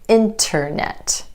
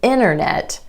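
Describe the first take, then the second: First: The T after the N is pronounced. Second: The T after the N is dropped. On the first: "than internet" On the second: "It's easier to say internet"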